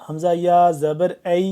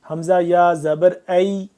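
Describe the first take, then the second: The two takes are said the same way.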